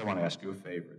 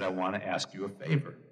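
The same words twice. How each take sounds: First: It is said in a weak voice. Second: It is said in a strong voice.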